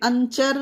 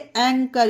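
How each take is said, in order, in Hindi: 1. बीच का व्यंजन 'ch' ध्वनि है। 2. बीच का व्यंजन 'k' ध्वनि है। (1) "इसे अंचोर वो या फिर अंचर नहीं पढ़ेंगे" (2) "इसे एंकर"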